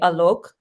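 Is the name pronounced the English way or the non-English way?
non-English. The name is said with a non-English pronunciation. This is how it would be said in the speaker's own language. "if I was saying it in our language without anglicizing"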